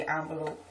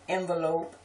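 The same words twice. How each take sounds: First: "envelope" as AHN-velope; others' pronunciation. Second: "envelope" as EN-velope; short E starting "envelope"; own pronunciation. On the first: Showing how people she knows say it, "envelope" as ON-velope. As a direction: open vowel starting "envelope". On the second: Reading the word list, "envelope" with EN. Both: Shown as a demonstration. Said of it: "people that say envelope".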